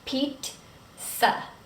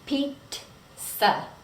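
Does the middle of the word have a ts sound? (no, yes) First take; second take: yes; yes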